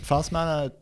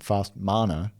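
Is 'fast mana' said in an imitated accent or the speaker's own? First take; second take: imitated; own. First: It is said in an imitated, different accent. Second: It is said in the speaker's natural accent. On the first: It copies how the other person says it. "I'm saying it in your accent" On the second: It is how the speaker normally says it. "Fast mana is how I say it"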